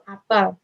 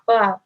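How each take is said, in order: First: The second syllable sounds like the letter 'L'. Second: The second syllable does not sound like 'L'. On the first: It means a gathering or assembly. "dilafalkan seperti menjadi L" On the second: It names a fruit. "diucapkan dengan lafal yang sama seperti arti nama buah apel"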